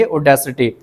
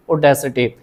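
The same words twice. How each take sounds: First: ऑडेसिटी said as aw-de-si-tee with a falling close; model pronunciation. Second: ऑडेसिटी repeated as aw-de-si-tee, soft and falling; model pronunciation repeated. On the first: Teacher modelling ऑडेसिटी for students to repeat, clear and falling. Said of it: "क्या बोलेंगे?". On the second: Teacher repeating ऑडेसिटी so students can copy it. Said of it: "इसको ऑडेसिटी pronounce करेंगे". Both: Shown as a demonstration.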